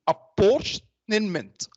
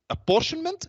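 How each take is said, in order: First: The word is said slowly and deliberately. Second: The word is said at normal speed.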